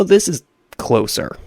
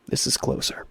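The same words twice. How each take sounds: First: Said in the usual way. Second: Unvoiced whisper, much softer; whispered aside. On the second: Gamer retelling his change of route, whispered aside. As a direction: repeat it under your breath. Repeats the remark under breath.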